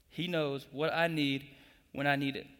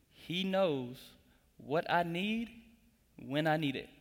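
First: Said in the usual way. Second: Each phrase set apart by pauses; slow, spaced out. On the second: Shown as a demonstration. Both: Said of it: "statement number two".

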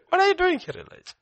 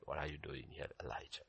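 First: Very high, loud question dropping off; incredulous questioning. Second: Low, very soft question; still small voice. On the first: God challenging Elijah at the cave, incredulous questioning. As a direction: pitch it right up in disbelief. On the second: God to Elijah at the cave, still small voice. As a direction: ask it gently under the breath. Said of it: "the still small voice". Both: Acted.

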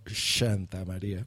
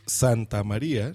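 First: "Santa" said as "Shanta", softly; slow, hushy sh for the S of "Santa"; ese como "sh". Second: Said in the usual way. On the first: Shown as a demonstration. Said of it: "no Santa María". ("Santa" pronunciado "Shanta", bajo y lento) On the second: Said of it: "aquí decimos Santa María".

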